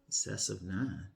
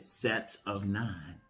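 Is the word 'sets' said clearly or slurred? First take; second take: slurred; clearly. First: The first word is slurred, sounding like 'cess'. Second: The first word is clearly said as 'sets'.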